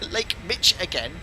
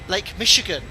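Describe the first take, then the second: First: The middle consonant is a 'ch' sound. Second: The middle consonant is an 'sh' sound. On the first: The speaker calls it wrong. "Is that how it's pronounced?" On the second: The speaker calls it right. "It's sh, not ch"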